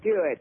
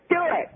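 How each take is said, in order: First: The words are said calmly, without yelling. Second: The words are yelled loudly. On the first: "pretty much the same thing without yelling" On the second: "And she just yelled it"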